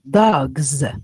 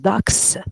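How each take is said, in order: First: The word ends with a buzzing Z sound. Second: The word ends with a hissing S sound. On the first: The speaker calls it right. "you say dogs, dogs. Okay, with Z Z sound" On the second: The speaker calls it wrong. "You don't say"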